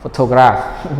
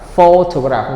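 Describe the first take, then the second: First: The stress is on a later syllable. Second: The stress is on the first syllable. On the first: The speaker calls it wrong. "not photograph. No" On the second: The speaker calls it right. "the stress is on the first syllable"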